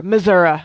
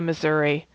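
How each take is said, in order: First: Missouri ending in "uh" instead of "ee"; Missouri with a punched, folksy "-uh" ending; local pronunciation. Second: Said in the usual way. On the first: Shown as a demonstration. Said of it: "as they say".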